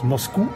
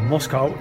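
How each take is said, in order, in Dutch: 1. De naam wordt met een Franse uitspraak gezegd. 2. De naam wordt met een Nederlandse uitspraak gezegd.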